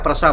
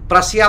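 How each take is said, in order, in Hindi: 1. यह नाम दो शब्दांश में बोला जाता है। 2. यह नाम तीन शब्दांश में बोला जाता है। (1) "एक्चुअल प्रोनाउंसिएशन प्रसा होता है" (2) "प्रसिया बोलते हैं"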